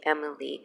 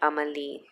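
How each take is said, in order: First: The name is pronounced with German pronunciation. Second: The name is pronounced with French pronunciation. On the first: "the German way would be" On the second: "French way would be"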